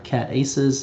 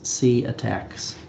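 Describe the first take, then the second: First: The name starts with the sound 'cat'. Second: The name starts with the sound 'see'. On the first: The speaker calls it wrong. "it's not cat aces" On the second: The speaker calls it right. "it's C attacks"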